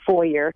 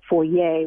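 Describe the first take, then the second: First: The word is said in a plain way. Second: The word is said in a French-sounding way. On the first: The speaker calls it right. "The best pronunciation supposedly is foyer" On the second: The speaker calls it wrong. "which sounds more affected"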